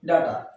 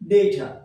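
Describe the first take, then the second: First: The first vowel sounds like 'ah'. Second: The first vowel sounds like 'ay'. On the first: The speaker calls it wrong. "আমরা এটাকে ডাটা বলি" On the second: The speaker calls it right. "কিন্তু আসলে এর উচ্চারণ হচ্ছে ডেটা"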